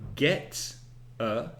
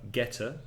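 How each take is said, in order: First: The two words are said slowly and separately. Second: The two words run together into one word.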